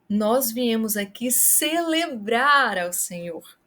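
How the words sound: The word celebrar is stressed. It highlights the act. "Se você quer chamar a atenção para o ato"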